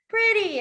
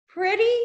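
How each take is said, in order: First: Said in the usual way. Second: High rising question. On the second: Retold or imitated. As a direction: ask it high and unsure. Checking the word she meant.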